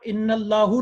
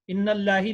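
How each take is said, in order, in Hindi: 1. शब्द का अंत u स्वर से होता है। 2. शब्द का अंत i स्वर से होता है। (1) "कभी भी आप इन्नल्लाहु नहीं पढ़ सकते" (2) "वहां इन्नल्लाही नहीं पढ़ सकते"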